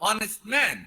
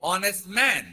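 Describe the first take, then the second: The two takes are said the same way.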